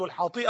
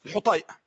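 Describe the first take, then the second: First: الحاطئة with long a: al-Haati'a; mock the common misreading الحاطئة; wrong pronunciation. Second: الحطيئة with u on ha and long i: al-Hutay'a; correct pronunciation. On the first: بالنطق الخاطئ: الحاطئة. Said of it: "وهذا خطأ". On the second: بالنطق الصحيح: الحُطَيئة. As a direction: say الحطيئة as al-Hutay'a, not al-Haati'a. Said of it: "انظر إلى الضبط الذي أذكره الآن". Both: Shown as a demonstration.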